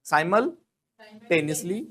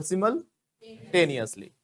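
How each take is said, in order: First: "Simultaneously" as SY-mul-TEN-is-lee; slow split "Simultaneously": SY-mul, TEN-is-lee; first accepted pronunciation. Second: "simultaneously" as SIM-ul-TAY-nee-us-lee; slow split "simultaneously": SIM-ul, TAY-nee-us-lee; second accepted pronunciation. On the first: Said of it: "या तो हम बोलेंगे". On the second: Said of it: "या फिर simultaneously". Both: Shown as a demonstration.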